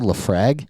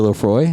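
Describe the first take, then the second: First: The second syllable sounds like 'frag'. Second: The second syllable sounds like 'froy'. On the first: The speaker calls it wrong. "she goes, "Can I get the Lafrag?"" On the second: The speaker calls it right. "every time I'm like the Lefroy"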